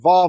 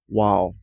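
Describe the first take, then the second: First: The word begins with a V sound. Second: The word begins with a W sound. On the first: This is the modern pronunciation. "We just say v today because we're using a little bit of modern pronunciation" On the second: This is the original, older pronunciation. "Because it used to be a W sound"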